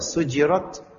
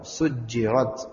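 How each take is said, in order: First: The j sound is short and single. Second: The j sound is doubled and held. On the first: "takhfif jadi jimnya mukhaffafah"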